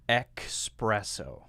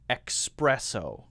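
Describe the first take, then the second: First: The first syllable has a 'ks' sound, like 'ex'. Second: The same.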